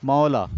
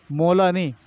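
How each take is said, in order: First: मौला said as "mau-la", lower, open "au"; the right मौला with the vowel opened wide; correct pronunciation. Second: मौला said as "mo-la" with a closed "o"; the mistaken मौला; wrong pronunciation. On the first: Teacher to class, giving the right मौला. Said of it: "मौला नहीं, मौला". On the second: Teacher to class, showing the wrong मौला. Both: Shown as a demonstration.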